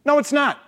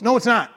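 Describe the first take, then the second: First: "No" punched much higher, falling hard; a raised, insistent repeat of "No"; emphatic no, higher. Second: "No" stressed and falling, a bit louder; a firm correction, "No" hit hard. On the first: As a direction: say "No" again, pitched way up for emphasis. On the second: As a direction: shut down the idea with "No". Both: Shown as a demonstration. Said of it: "Well, it's kinda close".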